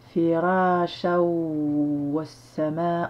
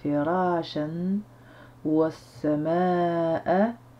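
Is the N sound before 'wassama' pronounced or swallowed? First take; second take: swallowed; pronounced. First: The N sound is swallowed into the W. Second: The N sound before the W is pronounced.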